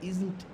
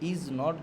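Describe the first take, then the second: First: It is said as one contracted word. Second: It is said as two separate words.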